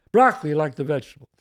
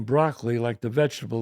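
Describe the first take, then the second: First: Louder, quick imitation of a friend; friend's catchphrase. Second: Said in the usual way. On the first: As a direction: punch out his pet line, fast. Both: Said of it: "that's what he always says".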